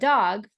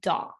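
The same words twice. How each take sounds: First: The final consonant sound is clearly pronounced. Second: The final consonant sound is left off. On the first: "instead of dog" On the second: "you'll hear dog"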